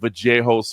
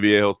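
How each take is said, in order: First: The name is said with an Argentinian pronunciation. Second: The name is said with an anglicized pronunciation. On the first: This is how people from the name's home country say it. "they pronounce it the Argentinians like Vallejos" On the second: This is the speaker's own habitual way of saying it. "I say Viejos"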